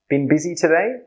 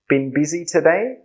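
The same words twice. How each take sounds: Both takes have the same delivery.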